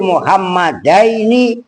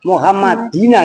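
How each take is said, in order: First: The word ends with the sound 'aini'. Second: The word ends with the sound 'ina'. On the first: The speaker calls it right. "Dirubah kitab kalian" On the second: The speaker calls it wrong. "contohnya di situ Muhammadina gitu ... salah"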